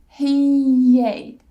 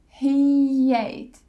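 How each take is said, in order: First: A y sound links the two words. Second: A y sound links the two words.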